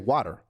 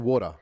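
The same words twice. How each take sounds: First: It is said with an American accent. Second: It is said with an Australian accent.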